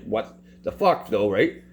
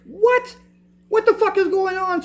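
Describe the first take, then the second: First: Much lower and slower, dry and unimpressed; advocate's real reaction. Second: Much higher, hammed-up shocked outburst; exaggerated outraged advocate. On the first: Retold or imitated. Advocate reacting to the denied application, low dry disbelief. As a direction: say it flat and knowing, no drama. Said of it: "She was obviously just like". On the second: Advocate reacting to the denied application, hammed-up high outrage. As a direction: overplay her outrage as a squeal. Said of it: "She didn't say it like that".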